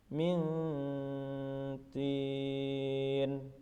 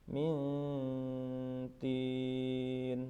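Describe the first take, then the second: The two takes are said the same way.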